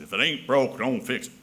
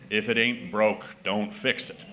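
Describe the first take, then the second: First: Light Southern accent. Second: Said in the usual way. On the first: Shown as a demonstration. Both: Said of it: "give that a Southern accent".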